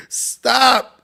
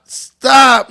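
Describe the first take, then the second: First: Said in the usual way. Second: A louder, firmer second stop. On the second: Real, not acted. Host cuts off the joke with a louder stop. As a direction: cut him off, louder this time.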